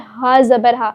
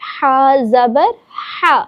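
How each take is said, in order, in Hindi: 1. यह जल्दी और हड़बड़ी में बोला गया है। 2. यह धीरे और साफ़ तरीके से बोला गया है। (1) "जल्दी जल्दी में" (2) "बहुत वाज़े करके"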